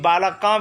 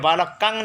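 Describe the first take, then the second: First: The word ends with an open a vowel. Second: The word ends with an ng sound. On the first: "कि बालका भी नहीं होगा" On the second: "ये बालकंग नहीं होगा"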